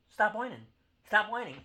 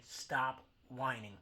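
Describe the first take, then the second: First: Higher, louder yelled rebuke; shouted scolding. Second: Slow, drawn-out scolding; slow stop whining. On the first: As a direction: yell it at the whiners. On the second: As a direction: spell it out slowly, word by word. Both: Acted. Rant at Kansas City fans.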